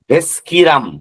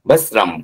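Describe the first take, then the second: First: The middle is said with an 'sk' sound. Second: The middle is said with a plain 's' sound. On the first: The speaker calls it wrong. "এটাকে ভেস্কিরাম বলবেন না" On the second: The speaker calls it right. "ভেসরাম ভেসরাম ভেসরাম, এটাই ভালো"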